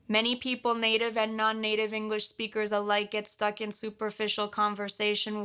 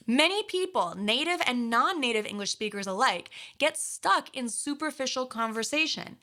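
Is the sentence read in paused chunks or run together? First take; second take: run together; paused chunks. First: It is read fast with words run together. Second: It is read in chunks with pauses between. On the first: The reading sounds boring and loses feeling. The speaker calls it wrong. "This is without any chunking" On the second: The reading carries feeling. The speaker calls it right. "did you hear how I was reading with pauses?"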